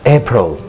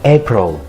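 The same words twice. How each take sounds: No difference in how they are said.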